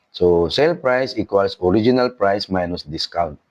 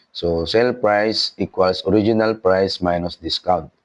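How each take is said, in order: Both takes have the same delivery.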